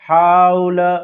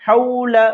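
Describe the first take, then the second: First: The diphthong is changed from the short soft form. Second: The diphthong is short, soft and quick. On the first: The speaker calls it wrong. "ये गलत है, इस तरह से नहीं पढ़ना है" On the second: The speaker calls it right. "नर्म आवाज के साथ जल्दी से पढ़ना है"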